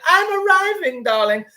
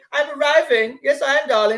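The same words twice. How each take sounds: First: Far higher, exaggerated posh swoop. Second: Posh voice. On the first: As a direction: push the snob voice over the top. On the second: Retold or imitated. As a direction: play a snooty aristocrat arriving. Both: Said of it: "That's what posh people say".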